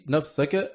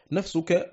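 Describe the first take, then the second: First: نفسك said nafsaka, with a on the s; accusative nafsaka. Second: نفسك said nafsuka, with u on the s; nominative nafsuka. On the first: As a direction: read نفسك as nafsaka, fatha on the sin before -ka. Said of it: "بالنصب". (نفسك بالنصب: نَفْسَكَ بفتح السين) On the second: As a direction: read نفسك as nafsuka, damma on the sin before -ka. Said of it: "بالرفع". (نفسك بالرفع: نَفْسُكَ بضم السين) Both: Shown as a demonstration.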